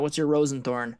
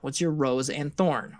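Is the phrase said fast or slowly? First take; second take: fast; slowly. First: The phrase is said fast and run together. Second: The phrase is said slowly with separate words.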